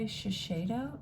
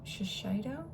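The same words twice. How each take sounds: First: Shiseido with the middle said "shay"; unsure pronunciation. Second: Shiseido with the middle said "shy", questioning; alternative pronunciation. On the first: Unboxer asking who owns the brand, Shiseido said with "shay". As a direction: say Shiseido as shuh-SHAY-doh. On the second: Unboxer second-guessing the brand's name, Shiseido said with "shy". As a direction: say Shiseido as shuh-SHY-doh, softer. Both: Real, not acted.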